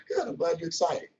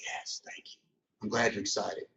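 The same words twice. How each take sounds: First: Calm, even, unbothered; composed and cool. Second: Soft, near-whispered private delight; inner glee. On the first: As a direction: keep it cool and collected. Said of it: "I keep my composure on". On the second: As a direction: hush it like thoughts inside your head. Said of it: "But inside, I'm like". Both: Retold or imitated.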